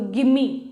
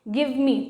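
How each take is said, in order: First: Run together as one word without V. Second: Two separate words with a clear V.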